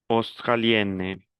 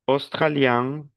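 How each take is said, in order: First: "australienne" slowly, falling to a clear n; model pronunciation. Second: "Australien" slowly, rising to a nasal vowel; model pronunciation. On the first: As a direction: sound the n in "australienne". ("australienne" lento, con la n clara) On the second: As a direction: end "Australien" through the nose. ("Australien" lento, con final nasal) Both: Shown as a demonstration. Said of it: "Repete la pronunciación".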